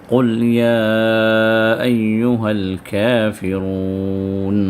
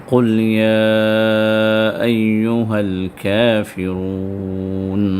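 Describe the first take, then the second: Both takes have the same delivery.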